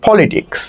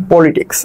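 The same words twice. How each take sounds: First: "পলিটিক্স" opened with an F-like P; English-style accented P. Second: Said in the usual way. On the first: Shown as a demonstration. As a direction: lean on the first sound of "পলিটিক্স", sahib-style. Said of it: "পি কে ফ উচ্চারণ করতেছি". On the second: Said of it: "ধরো আমি".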